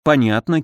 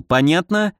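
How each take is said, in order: First: Said in the usual way. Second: "Понятно" with a higher, rising questioning end; вопрос. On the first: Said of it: "кивнула она". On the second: A narrator's reading. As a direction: demand confirmation, "Понятно" pitched up as a question. Checking that orders are understood. («Понятно» с вопросительным подъёмом)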